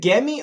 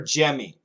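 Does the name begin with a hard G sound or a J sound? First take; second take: hard G; J sound. First: The name begins with a hard G sound. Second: The name begins with a J sound. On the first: The speaker calls it wrong. "Is it a G" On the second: The speaker calls it right. "or a J pronunciation? ... It's a J"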